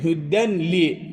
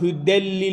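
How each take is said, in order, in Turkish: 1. n, l'den önce açıkça okunur. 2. n, çift l sesine birleşir. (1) "görünüşü"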